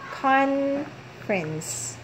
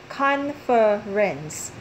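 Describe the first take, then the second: First: The middle vowel is dropped, giving two syllables. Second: The middle vowel is heard, giving three syllables. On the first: "if you're going to apply the American accent" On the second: "If you're going to read this normally, it's it sounds like this"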